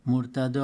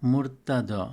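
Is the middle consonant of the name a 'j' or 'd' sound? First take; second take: d; d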